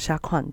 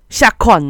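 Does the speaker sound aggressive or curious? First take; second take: curious; aggressive. First: It is said in a curious, questioning tone. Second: It is said in a confrontational, aggressive tone. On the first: The speaker is asking for an opinion. "就是问他到底觉得怎么样" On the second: The speaker is picking a fight. "就是要打架人"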